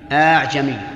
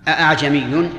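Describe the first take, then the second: First: The hamza becomes a vowel of normal length. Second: The second hamza is said as a glottal stop. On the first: "ودونه" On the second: "بتحقيق الهمزة الثانية"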